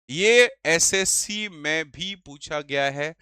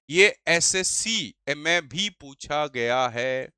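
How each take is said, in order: First: Said in the usual way. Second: Slow, lower and drawn out, leaning on "ये"; drawn-out emphasis. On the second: Shown as a demonstration. Teacher stresses to students that SSC asked it, drawn out. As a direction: stretch each word of "ये SSC में भी पूछा गया है".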